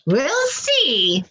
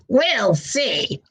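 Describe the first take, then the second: First: Lightly voiced witch, higher and teasing; a hint of a knowing witch; sly witch. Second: Sly witch. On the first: Witch teasing the frog-to-be, lightly sly. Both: A narrator's reading. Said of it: "laughing to herself".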